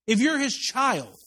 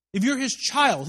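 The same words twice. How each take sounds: First: Slow emphasis. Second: Said in the usual way. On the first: Shown as a demonstration.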